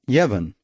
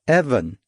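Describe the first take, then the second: First: The name starts with a y sound. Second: The name starts with a plain vowel sound. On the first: The speaker calls it wrong. "Not Yevon" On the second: The speaker calls it right. "I said patiently"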